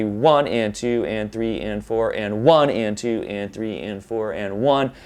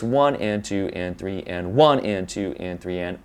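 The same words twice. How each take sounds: First: Even count with "one" stressed, groups of four; four-beat emphasis. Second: Even count with "one" stressed, groups of three; three-beat emphasis. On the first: Teacher showing four four time, stress on each "one". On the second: Teacher contrasting the riff with four four, stress on each "one". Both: Shown as a demonstration. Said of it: "it's a matter of where the emphasis is".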